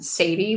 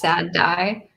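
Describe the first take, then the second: First: It sounds like the name Sadie. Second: It sounds like 'sad' followed by 'die'. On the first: The speaker calls it wrong. "immediately when I saw it, I pronounced it Sadie" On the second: The speaker calls it right. "I'm pretty sure it's Sad Die"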